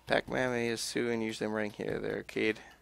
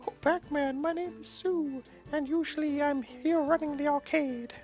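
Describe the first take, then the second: First: It is read in the speaker's normal voice. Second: It is said in a put-on stereotypical girl voice.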